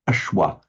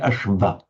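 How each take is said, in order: First: The consonant after the sh sounds like W. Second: The consonant after the sh sounds like V. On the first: The speaker calls it right. "it would be pronounced exactly like a W" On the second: The speaker calls it wrong. "They wouldn't say Ashva"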